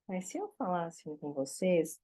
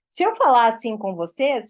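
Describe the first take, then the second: First: The voice is gentle and sweet. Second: The voice is hard and forceful. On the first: The listener comes closer to hear. The speaker calls it right. "se você fala mais manso, se você fala mais doce" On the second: Listening to it becomes tiring after a while. The speaker calls it wrong. "chega uma hora que dá uma canseira"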